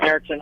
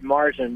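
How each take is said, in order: First: The first vowel is a fronted umlaut a. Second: The first vowel is a plain open a. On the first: The speaker calls it right. "It has the two dots over the A. That makes it Märzen" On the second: The speaker calls it wrong. "Marzen's incorrect pronunciation"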